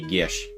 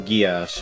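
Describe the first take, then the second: First: It is said as one syllable, like 'gish'. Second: It is said as two syllables, like 'gee-ass'. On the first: The speaker calls it right. "If you were to pronounce it properly, it's supposed to be Gish" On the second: The speaker calls it wrong. "apparently that's incorrect to pronounce it"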